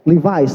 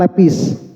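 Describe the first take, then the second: First: The word is said with a v sound. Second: The word is said with a p sound.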